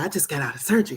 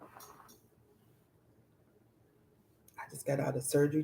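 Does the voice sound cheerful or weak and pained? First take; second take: cheerful; pained. First: It is said in a casual, upbeat tone. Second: It is said in a weak, strained tone. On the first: The speaker seems unaffected by the surgery. The speaker calls it wrong. "I can't play somebody sick in the hospital that just went through surgery and be like, oh yeah" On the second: The speaker is suffering after the surgery. The speaker calls it right. "the this tone of voice is different"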